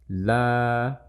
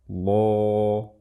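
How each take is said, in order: First: The L is light, with a clear open vowel. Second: The L is heavy, with a dark rounded vowel. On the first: "seperti ini suara lam tipis" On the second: "seperti ini suara lam tebal"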